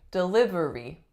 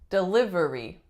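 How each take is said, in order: First: All four syllables are pronounced. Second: The same.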